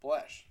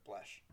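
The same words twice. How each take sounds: First: Blesh called out loud and proud; coined word, announced. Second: Mesh blended into Blesh, said softly and thoughtfully; coined word. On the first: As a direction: announce Blesh like a new catchphrase. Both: Shown as a demonstration. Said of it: "Blend and mesh together".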